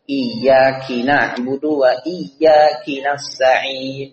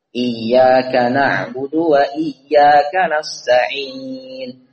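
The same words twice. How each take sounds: First: The pronoun iyyaka ends with the sound ki. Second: The pronoun iyyaka ends with the sound ka. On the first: The speaker calls it wrong. "Diganti ... Ini keliru besar" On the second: The speaker calls it right. "semestinya kaf"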